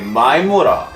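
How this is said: It is said in a rough, blunt tone. It is addressed to a male friend. "If you're saying to guy ... It can be mean ... we're rugged"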